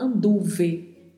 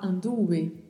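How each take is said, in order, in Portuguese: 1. O V é um som de v bem marcado. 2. O V soa entre um b e um v. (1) "a gente não fala anduve com o V tão marcado" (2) "para ficar um som entre a letra B e a letra V"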